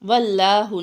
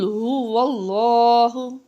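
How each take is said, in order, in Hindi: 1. L हल्का है, पतले अ स्वर के साथ। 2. L भारी है, पूरी और गहरी स्वर के साथ। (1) "वल्लाहु नहीं पढ़ना इसको" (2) "आपने इसको मोटा पढ़ना है, पूर करके पढ़ना है"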